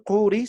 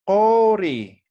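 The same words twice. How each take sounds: First: Curi with a plain U, as spelt; written pronunciation. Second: Cori with an O after the back Q; U lowered to O. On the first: Teacher showing students what not to say, curi with U. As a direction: say "curi" with an U sound, quickly. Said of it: "no vamos a decir curi". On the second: Teacher modelling for students how to pronounce it, cori with O. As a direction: say "cori" with a long, loud O. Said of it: "sino vamos a decir cori". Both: Shown as a demonstration.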